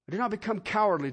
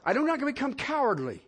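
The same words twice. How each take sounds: First: Fast rush through it again; quick repeat. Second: "not" leaned on, measured pace; stress on not. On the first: Preacher quickly repeating the line to the congregation. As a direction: rattle it off. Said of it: "repeated line". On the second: Preacher stressing "not" to the congregation. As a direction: say "not" with weight. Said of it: "repeats it faster". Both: Shown as a demonstration.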